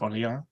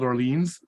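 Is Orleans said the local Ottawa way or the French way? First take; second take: French; Ottawa. First: It is said with the French pronunciation. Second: It is said with the local Ottawa pronunciation. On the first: It names the place in France. "this is actually France, so it's Orleans" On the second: It names the area in Ottawa. "that's how we pronounce it here"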